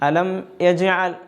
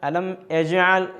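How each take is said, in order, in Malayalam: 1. രണ്ടാമത്തെ വാക്ക് ഗ്ലോട്ടൽ 'e' ശബ്ദത്തോടെയാണ് തുടങ്ങുന്നത്. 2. രണ്ടാമത്തെ വാക്ക് ഗ്ലോട്ടൽ 'e' ശബ്ദത്തോടെയാണ് തുടങ്ങുന്നത്.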